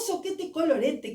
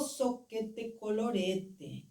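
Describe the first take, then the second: First: It is said in a pleased, happy way. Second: It is said in a let-down, disappointed way. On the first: Something turned out well. "que bom, que bom" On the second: Something has failed. "vivencia um fracasso e diz"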